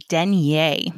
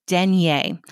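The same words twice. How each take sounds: Both takes have the same delivery.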